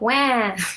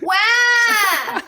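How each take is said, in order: First: It is said flatly, without much feeling. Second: It is said with strong, exaggerated feeling.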